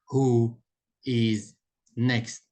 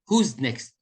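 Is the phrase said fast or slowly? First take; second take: slowly; fast. First: It is said slowly with every word full. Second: It is said fast with words run together. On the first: "They don't say who is next" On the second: "they say it fast"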